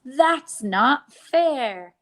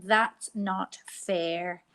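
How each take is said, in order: First: Put-on "That's not fair." slow and louder, a child's sulky protest; mock complaint. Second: "That's not fair." slowly at normal level; slow modelled sentence. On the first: Teacher acting children denied treats, sulky and loud. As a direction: whine it like a left-out child. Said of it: "the sentence we say is". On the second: Teacher repeating the sentence for pupils, slow. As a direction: spell it out slowly for the class. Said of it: "So they are saying". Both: Shown as a demonstration.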